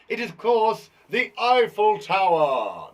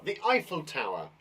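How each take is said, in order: First: Loud, slow, drawn-out announcement; stretched-out, showy quiz answer; grand reveal. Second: Said in the usual way. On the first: Pretend. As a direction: boom out the answer with a flourish.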